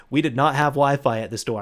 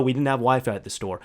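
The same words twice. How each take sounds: First: "did not" stressed as two separate words; emphatic repeat. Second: Said in the usual way. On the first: Real, not acted. Hammering home no Wi-Fi, stressing "not". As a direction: land firmly on "not". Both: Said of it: "I'm saying that multiple times".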